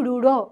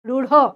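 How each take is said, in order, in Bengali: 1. শেষ ব্যঞ্জনে জোরালো হ-এর মতো শ্বাস আছে। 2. শেষ ব্যঞ্জনে জোরালো হ-এর মতো শ্বাস আছে।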